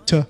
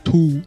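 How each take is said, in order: First: The vowel is reduced to a weak sound. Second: The vowel is full and clearly pronounced. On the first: The speaker calls it right. "读t 或者to。弱读" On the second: The speaker calls it wrong. "不读to"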